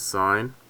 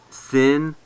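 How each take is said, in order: First: The word has a long 'eye' vowel. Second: The word has a short 'ih' vowel. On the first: The speaker calls it right. "this is sine" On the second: The speaker calls it wrong. "they'll say sin"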